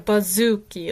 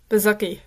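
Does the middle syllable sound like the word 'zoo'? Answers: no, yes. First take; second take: yes; no. First: The middle syllable sounds like 'zoo'. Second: The middle syllable does not sound like 'zoo'. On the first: The speaker calls it right. "like like the zoo" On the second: The speaker calls it wrong. "I'm sorry if I mispronounced your last name"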